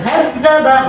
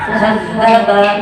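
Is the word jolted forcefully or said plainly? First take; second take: forceful; plain. First: The word is said with a forceful jolt. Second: The word is said plainly, without a jolt. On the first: The speaker calls it wrong. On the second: The speaker calls it right.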